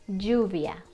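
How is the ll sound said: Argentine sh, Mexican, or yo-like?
Mexican. The ll is said the Mexican way. "I taught you the way that Mexicans say it"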